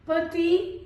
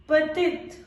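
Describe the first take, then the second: First: "petit" with silent final t; masculine pronunciation. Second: "petite" with sounded final t; feminine pronunciation. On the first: Teacher modelling the masculine form, "petit" without final t. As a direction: end "petit" on a rising ee. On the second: Teacher modelling the feminine form, "petite" with final t. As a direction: close "petite" on a crisp t. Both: Shown as a demonstration.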